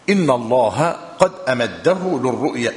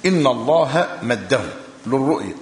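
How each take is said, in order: First: أمده opened with a short a before the m; أمده with initial alif. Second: مده begun straight on the m, no opening a; مده without alif. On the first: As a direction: sound the hamza at the start of أمده. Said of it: "أمده بألف في أوله". (نطق «أمده» بألف في أولها) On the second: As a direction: say مده with no hamza before the meem. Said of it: "متفقة على مده من غير ألف". (نطق «مده» من غير ألف في أولها) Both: Shown as a demonstration.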